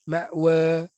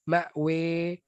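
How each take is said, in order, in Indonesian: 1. Vokal akhir itu antara a dan e. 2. Vokal akhir itu e yang jelas. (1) "baris taklil" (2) "baris imalah"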